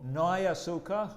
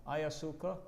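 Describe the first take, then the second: First: "¿No hay azúcar?" higher and louder, surprised. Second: Said in the usual way. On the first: Shown as a demonstration. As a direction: ask "¿No hay azúcar?" as if you expected some. (tono de sorpresa: "¿No hay azúcar?") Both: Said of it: "tiene que cambiar el tono de voz".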